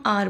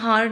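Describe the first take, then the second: First: The word begins directly with a vowel. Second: The word begins with an h sound. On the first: The speaker calls it right. "हम आर बोलते हैं" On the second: The speaker calls it wrong. "हम हार नहीं बोलते"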